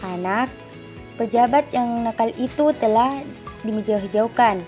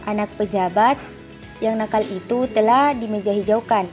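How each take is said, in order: First: A longer pause comes right after anak. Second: No pause comes after anak; the pause comes later. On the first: The child is naughty and was taken to court. "jeda yang agak lama antara anak dan pejabat pada kalimat pertama" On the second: The official's child, who is naughty, was taken to court. "dan antara pejabat"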